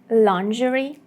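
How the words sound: It is said with a British pronunciation. "The more common British pronunciation is"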